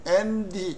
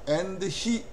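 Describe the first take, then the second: First: The two words are linked into one. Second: The two words are said separately. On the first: The speaker calls it right. "붙여서 연음으로 한 단어처럼" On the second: The speaker calls it wrong. "and he 이렇게 안 하고요"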